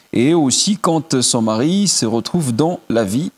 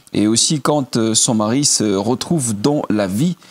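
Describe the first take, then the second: The two takes are said the same way.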